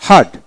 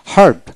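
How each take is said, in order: Both takes have the same delivery.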